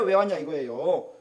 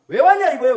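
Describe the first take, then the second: First: Said in the usual way. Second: High, loud demanding question; loud challenge. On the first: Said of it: "repeated question, second calmer". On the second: Acted. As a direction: call it out loud like a rebuke. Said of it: "repeated question, first loud". (높고 크게 따지듯이)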